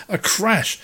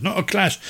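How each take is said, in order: First: "crash" stressed as the corrected word. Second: "clash" set apart as the wrong word; stress on clash. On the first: Correcting clash of cultures, stress on "crash". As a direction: land firmly on "crash", with a clear r. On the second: Correcting his own word choice, stress on "clash". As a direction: lean on "clash" to reject it. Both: Shown as a demonstration.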